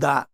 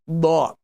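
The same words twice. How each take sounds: First: The sound is light and thin, with an empty mouth. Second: The sound is heavy and full, with a full mouth. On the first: The speaker calls it wrong. "It is not empty mouth. It is not da" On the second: The speaker calls it right. "full mouth letter"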